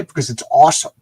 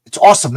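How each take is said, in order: First: Said in the usual way. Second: "awesome" punched high and loud; gushing fanboy emphasis; emphatic. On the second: Real, not acted. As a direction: hit "awesome" hard and high. Answers own question, repeats louder.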